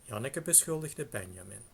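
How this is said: The pitch falls before the accented syllable ben.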